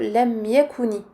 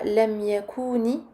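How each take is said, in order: First: Every syllable is short, with one beat each. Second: The vowel in 'ku' is drawn out long. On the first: The speaker calls it right. "mais plutôt ... ça va très vite, c'est un temps pour chacune de ces syllabes" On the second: The speaker calls it wrong. "on ne dit pas"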